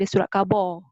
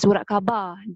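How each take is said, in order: First: The last syllable ends with an 'o' sound. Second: The last syllable ends with an 'a' sound. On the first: This is the Johor dialect form. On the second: This is the standard Malay form.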